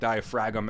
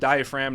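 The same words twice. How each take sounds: First: It is pronounced letter by letter as spelled. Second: It is pronounced the usual, everyday way. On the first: The speaker calls it wrong. "not the diaphragm as it's spelled" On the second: The speaker calls it right. "it's called the diaphragm"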